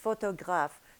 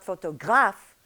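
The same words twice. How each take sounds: First: The last vowel is lengthened slightly, without force. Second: The accented syllable is said with extra force. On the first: The speaker calls it right. "The accent is an accent of length" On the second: The speaker calls it wrong. "it's not photographe"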